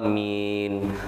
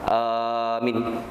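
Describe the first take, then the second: First: The first vowel is short. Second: The first vowel is drawn out long. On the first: The speaker calls it right. "yang benar mengucapkan adalah amin" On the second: The speaker calls it wrong. "atau mungkin panjangnya di depan"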